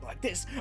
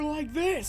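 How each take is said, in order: First: The voice is at a normal, quieter level. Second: The voice is noticeably louder. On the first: This is how loud the speaker believes he is talking. "I think I'm talking like this" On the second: This is how loud the speaker actually talks. "I'm really talking more like this!"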